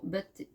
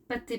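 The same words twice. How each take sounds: First: "bâtés" with a voiced b instead of p; slip b for p. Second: "pâtés" with a crisp unvoiced p; corrected p. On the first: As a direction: trip on "bâtés", b where p belongs. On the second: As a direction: fix it to "pâtés", p clearly unvoiced. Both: Real, not acted. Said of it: "pâtés, pardon".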